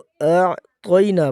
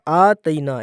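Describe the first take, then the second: First: The t sound is heavy and thick. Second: The t sound is light and thin. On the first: The speaker calls it right. "तौ मोटे हरूफ में से है तो इसको मोटा करेंगे" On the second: The speaker calls it wrong. "ये दोनों गलत तरीके हैं"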